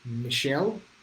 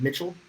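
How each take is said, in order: First: The name is said with French pronunciation. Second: The name is said without French pronunciation. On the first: "the French way, he says" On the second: "Hope I'm pronouncing that right"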